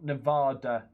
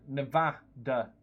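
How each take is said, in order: First: Slow "Nevada" with a long AH, ne-VAH-da; English long A. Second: Slow "Nevada" with a short A in the middle; short A pronunciation. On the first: Streamer showing the wrong version, "Nevada" with a long English AH. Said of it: "I probably say it wrong 'cause I'm English". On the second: Streamer reading out a viewer's correction, "Nevada" with a short A. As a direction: say "Nevada" with VAD as in "mad". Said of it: "proper pronunciation is a short A". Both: Shown as a demonstration.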